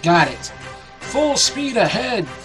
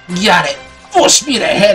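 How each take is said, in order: First: It is read in a plain, normal voice. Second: It is read in a put-on pirate voice. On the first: The speaker calls it wrong. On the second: The speaker calls it right.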